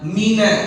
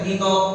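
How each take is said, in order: First: The final vowel sounds like 'a'. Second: The final vowel sounds like 'o'. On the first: The speaker calls it right. "Jadi mina bukan mino" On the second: The speaker calls it wrong. "Jadi baca mino la salah"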